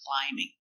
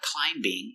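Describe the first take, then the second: First: No B sound is heard after the M. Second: A B sound is pronounced after the M. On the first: The speaker calls it right. "the B is silent" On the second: The speaker calls it wrong. "It's not climbing"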